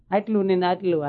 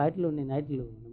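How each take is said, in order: First: Said in the usual way. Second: આટલું ને આટલું dropped much softer, like a greedy murmur; soft mock greed. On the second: Shown as a demonstration. Preacher mimics greedy people wanting more, softly. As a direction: let આટલું ને આટલું fade into a hushed grasping echo. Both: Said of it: "ભગવાન જેટલું આપે તો હજી આટલું".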